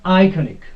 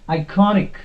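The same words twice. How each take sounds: First: The stress is not on the second-to-last syllable. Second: The stress is on the second-to-last syllable. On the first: The speaker calls it wrong. "not iconic. No, that is wrong" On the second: The speaker calls it right. "The correct pronunciation of this word is iconic"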